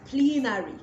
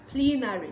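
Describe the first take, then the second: No difference in how they are said.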